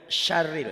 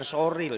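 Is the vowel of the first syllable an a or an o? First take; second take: a; o. First: The first syllable has an a vowel. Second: The first syllable has an o vowel. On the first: The speaker calls it right. "Bunyi A jangan bunyi O" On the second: The speaker calls it wrong. "jangan soril ya"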